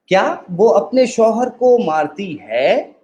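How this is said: The stress falls on the word है. She may have beaten him before but stopped now. "अब हम आखिरी लफ्ज पे एम्फसाइज करेंगे।"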